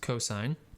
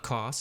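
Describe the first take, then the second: First: It is said as three full syllables. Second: It is said as one short syllable. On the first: The speaker calls it right. "it's cosine" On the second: The speaker calls it wrong. "It's not cos"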